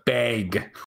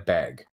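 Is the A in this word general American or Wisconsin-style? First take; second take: Wisconsin; general American. First: The A is a hard Wisconsin vowel. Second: The A is a general American vowel. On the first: "In Wisconsin, it's a bag" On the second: "how they would pronounce it would be a bag"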